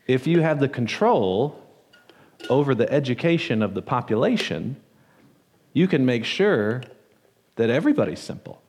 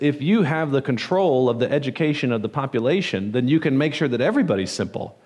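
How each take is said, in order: First: It is said at a slower, deliberate pace. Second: It is said at a normal, faster pace.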